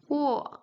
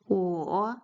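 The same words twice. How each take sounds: First: The pitch falls sharply from high to low. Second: The pitch dips low and then rises.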